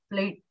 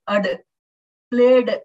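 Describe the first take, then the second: First: "played" as one syllable, the E silent; correct pronunciation. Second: "played" with the final "ed" sounded out hard and loud; learner's mispronunciation. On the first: Shown as a demonstration. English teacher showing students the proper form, correct pronunciation. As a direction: say "played" smoothly, ending in a light d. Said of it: "it is actually to be pronounced". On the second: English teacher mimicking children learning the language, learner's mispronunciation. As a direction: imitate a learner voicing the ending of "played". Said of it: "they say ad, played".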